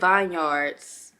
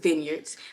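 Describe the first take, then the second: First: The first part sounds like 'vine'. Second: The first part sounds like 'vin'. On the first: The speaker calls it wrong. "I was saying vineyards" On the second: The speaker calls it right. "somebody told me it was vineyards"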